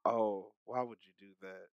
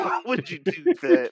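First: Said in the usual way. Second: High laughing question. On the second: Real, not acted. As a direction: laugh through the words. Laughing repeat.

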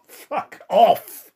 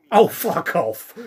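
First: Higher, louder incredulous shout; raging gamer. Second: Louder, slow disbelieving shout; slow shouted disbelief; exasperated outburst. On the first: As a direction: yell it in outraged disbelief. Repeats outburst louder. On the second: Outburst at absurd scene. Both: Real, not acted.

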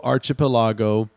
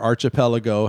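First: Archipelago stressed on LA, as "archi-puh-LAH-go"; alternative pronunciation. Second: Archipelago stressed on PEL, as "archi-PEL-uh-go"; alternative pronunciation. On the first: Host reading a book title aloud, Archipelago said "archi-puh-LAH-go". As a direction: say Archipelago with an open "LAH" as the second-to-last syllable. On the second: Host offering another way to say the title, Archipelago as "archi-PEL-uh-go". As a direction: say Archipelago with a short "PEL" and a light "uh-go". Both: Shown as a demonstration. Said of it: "however you want to say that".

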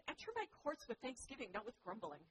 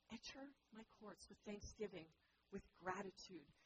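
First: Stressed my, raised. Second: Repeated softly, enter weighted; "Enter my courts" said gently and quieter; softer repeat. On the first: God invites his people, leaning on "my". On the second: God repeats the invitation, soft and tender. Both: Shown as a demonstration. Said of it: "He says".

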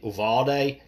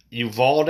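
First: Uvalde said as oo-VAL-day, three syllables; retry Uvalde as oo-val-day, ending on day; second try pronunciation. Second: Uvalde said as you-VALD, rising and unsure; unsure pronunciation. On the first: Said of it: "probably am saying it wrong". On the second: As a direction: try Uvalde as you-vald with a questioning rise. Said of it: "I'm gonna say that's how you say it". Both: Real, not acted.

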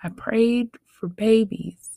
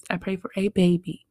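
First: Said in the usual way. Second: Put-on "a" said long and clear to mean one single baby; stress on a. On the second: Shown as a demonstration. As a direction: lean on "a" in "a baby".

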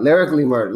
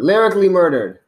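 First: Said in the usual way. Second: Lyrically punched higher and louder; stress on Lyrically. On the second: Shown as a demonstration. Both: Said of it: "let me straighten that out".

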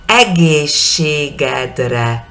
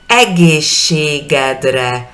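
First: Egészségedre again very slowly, vowels held apart; slow syllable by syllable. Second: Egészségedre very slowly, each vowel held apart; slow syllable by syllable. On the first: Teacher repeats Egészségedre slowly for the class. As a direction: drag through Egészségedre, every vowel clear. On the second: Teacher drills Egészségedre slowly for students. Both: Shown as a demonstration. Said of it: "E, E, E, E, E".

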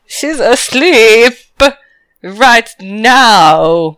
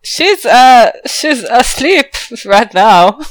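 First: "asleep" very drawn out, then a pause before "right now"; heavy air-quote stress. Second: "asleep" raised and drawn out; hint with a slow, loaded "asleep"; knowing euphemism. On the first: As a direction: spell out the hint with a slow "asleep" and "right now". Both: Acted. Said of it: "what are the, uh, bunny ears for".

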